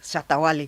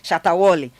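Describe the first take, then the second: First: The name is said in the speaker's own accent. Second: The name imitates the Zanzibar tour guide's accent.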